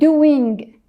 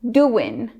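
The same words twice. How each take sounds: First: The final G sound is fully pronounced. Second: The final G sound is dropped. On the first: "I used to be like" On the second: "Americans drop the G"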